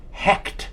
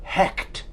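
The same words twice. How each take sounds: First: Hecht, the ch scraped like clearing the throat; Hecht with a throaty ch. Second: Hecht again, ch rasped from the throat; Hecht said along. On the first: Host savoring a fun name, Hecht with a throaty ch. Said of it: "That's a fun name to say". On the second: Host inviting listeners to say Hecht together, throaty ch. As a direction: lead the listeners in saying Hecht, guttural ch. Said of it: "Say it with me". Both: Shown as a demonstration.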